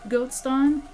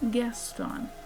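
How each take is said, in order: First: The name is said as 'Goatston'. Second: The name is said as 'Gaston'. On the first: The speaker calls it wrong. "He really, really dislikes when people pronounce it Goatston" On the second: The speaker calls it right. "It is pronounced Gaston"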